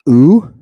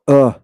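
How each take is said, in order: First: The vowel sound is held long. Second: The vowel sound is clipped short. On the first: "The upsilon has a long version" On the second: "and it has a short ve- version"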